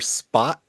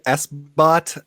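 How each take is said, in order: First: The name is said as one word, spot. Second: The name starts with a letter, then bot. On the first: The speaker calls it right. "I prefer Spot" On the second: The speaker calls it wrong. "most people want to say S-bot"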